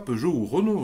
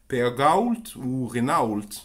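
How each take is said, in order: First: The names have the usual French pronunciation. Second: The names are said sounding out the written letters. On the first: "il dit pas Peugeot ou Renault" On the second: "il dit Peagault ou Renault, un truc comme ça"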